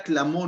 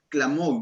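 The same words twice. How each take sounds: First: Said in the usual way. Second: Clamó stretched out slowly and weighted; stress on clamó. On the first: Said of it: "no es de que pronto susurró". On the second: Shown as a demonstration. Preacher stresses clamó to show it means crying out. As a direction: lean hard on clamó, slowly. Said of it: "no es de que pronto susurró, sino clamó".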